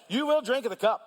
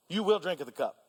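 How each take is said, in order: First: Earnest emphasis on will; emphatic you will drink. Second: You will drink of the cup softer, settled, falling on will; calm quiet restatement; quiet repeat. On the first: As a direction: press on the word will, raised. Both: Shown as a demonstration. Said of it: "repeats line contrasted".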